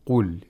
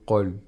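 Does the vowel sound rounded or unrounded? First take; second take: rounded; unrounded. First: The vowel is said with clearly rounded lips. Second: The vowel is said with neutral, unrounded lips. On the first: The speaker calls it right. "We say qul. So the lips are rounded" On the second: The speaker calls it wrong. "We don't say qul"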